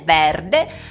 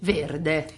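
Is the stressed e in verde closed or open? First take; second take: open; closed. First: The stressed e is pronounced open. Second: The stressed e is pronounced closed. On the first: The speaker calls it wrong. "non è verde" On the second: The speaker calls it right. "Verde si dice chiuso"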